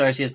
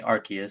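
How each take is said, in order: First: Arceus with an S sound, AR-see-us; soft C in Arceus. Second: Arceus with a K sound, AR-kee-us; hard C in Arceus. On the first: Telling co-host their usual way, soft-C Arceus. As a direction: say Arceus with S, never K. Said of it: "I always said Arceus". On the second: Quoting how the presentation said it, hard-C Arceus. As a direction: say Arceus with K, never S. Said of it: "they were saying Arceus". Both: Shown as a demonstration.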